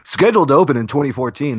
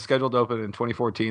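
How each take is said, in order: First: It is read in a polished, promotional announcer voice. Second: It is read in an ordinary, casual speaking voice.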